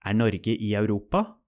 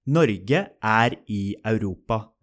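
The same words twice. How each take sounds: First: Europa lifting upward at the end; rising question tune. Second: Europa settling down flat as a statement; falling statement tune. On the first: Teacher giving the Norwegian question, with a rising end. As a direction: ask it with the voice going up on Europa. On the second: Teacher giving the Norwegian statement, with a falling end. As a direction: keep Europa level and let it end. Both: Shown as a demonstration. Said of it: "the intonation changes to form a question".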